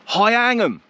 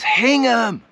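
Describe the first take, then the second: First: The first syllable sounds like 'high'. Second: The first syllable sounds like 'hing'. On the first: The speaker calls it wrong. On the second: The speaker calls it right.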